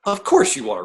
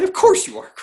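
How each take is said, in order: First: Said in the usual way. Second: Much higher, playful jab; sing-song higher teasing repeat; mock-knowing tease. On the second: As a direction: tease him like it's obvious. Teasing guest about Bruce Lee.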